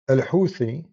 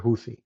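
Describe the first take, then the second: First: The name is pronounced with Arabic sounds. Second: The name is pronounced with English sounds. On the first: "I'm saying it in Arabic, the correct way" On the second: "in English, you say Houthi"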